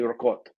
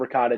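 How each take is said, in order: First: It is said with an Italian accent. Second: It is said with an American English accent. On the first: The speaker calls it right. "she'll be like, it's actually" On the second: The speaker calls it wrong. "I'll say like"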